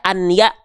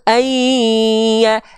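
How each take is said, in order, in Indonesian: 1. Bunyi n terdengar jelas sebelum ya. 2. Bunyi n melebur menjadi bunyi y yang dobel. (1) "maka nggak dibaca an ya" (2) "tapi dibaca ayya, dila- dibeleburkan"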